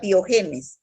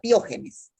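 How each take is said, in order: First: The stress falls after the second syllable. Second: The stress falls on the second syllable. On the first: The speaker calls it wrong. "No diga piogenes" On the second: The speaker calls it right. "Acento en la, en la O"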